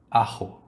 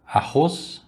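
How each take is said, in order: First: "arro" with no final S, like Spanish ajo; Spanish-heard ajo. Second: "Arroz" with a throaty Portuguese R and a final S; "Arroz" with a rasping R and a clear S at the end. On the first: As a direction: drop the S: "arro". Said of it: "ela parece com arro". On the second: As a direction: say "Arroz" the Brazilian way, guttural R. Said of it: "que quer dizer alho". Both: Shown as a demonstration.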